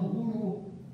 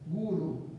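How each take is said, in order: First: The stress is on the second syllable. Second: The stress is on the first syllable. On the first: The speaker calls it wrong. "as pessoas pronunciam de uma forma errônea" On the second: The speaker calls it right. "a sílaba tônica é na primeira"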